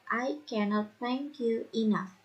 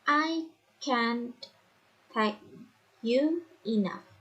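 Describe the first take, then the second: First: The negative is said in full as cannot. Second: The negative is contracted to one syllable.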